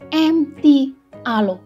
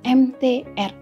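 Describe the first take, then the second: First: The final letter is said as alo. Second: The letters use Indonesian names, ending in er. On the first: "orang Hong Kong menjelaskan M T R kadang-kadang menjadi M T Alo" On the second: "kita baca dengan abjad bahasa Indonesia"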